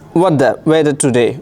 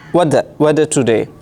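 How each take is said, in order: First: The words run together with sounds dropped. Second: The same.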